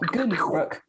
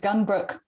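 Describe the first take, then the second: First: The name is pronounced the Swedish way. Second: The name is pronounced the English way.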